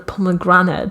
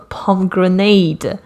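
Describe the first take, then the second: First: The ending does not sound like 'grenade'. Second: The ending sounds like the word 'grenade'. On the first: The speaker calls it right. "Why is this called a pomegranate" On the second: The speaker calls it wrong. "like it's a type of weapon that shoots pom poms"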